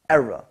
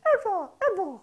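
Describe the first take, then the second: First: Said in the usual way. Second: Era, era in a much higher falsetto. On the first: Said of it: "you say the word era". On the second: Shown as a demonstration. Beatbox teacher demonstrating the word in falsetto. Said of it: "you put it in a falsetto voice".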